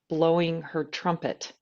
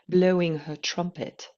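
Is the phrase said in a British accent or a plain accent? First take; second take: plain; British. First: It is said in the speaker's ordinary accent. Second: It is said in a put-on British accent.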